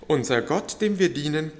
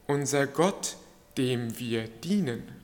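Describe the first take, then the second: First: The word dienen carries no special stress. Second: The word dienen carries strong stress.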